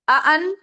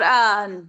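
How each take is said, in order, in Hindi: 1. दोनों स्वर एक साफ़ कैच से अलग होते हैं। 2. दोनों स्वर मिलकर एक ही ध्वनि बन जाते हैं। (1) "आ अन करेंगी" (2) "आ अन और आन दो फर्क है"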